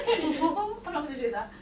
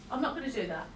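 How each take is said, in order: First: Laughing through the refusal, higher; amused, laughing refusal. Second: Said in the usual way. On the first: Real, not acted. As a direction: giggle the line again. Laughs before repeating. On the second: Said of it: "which is why you heard me say to him".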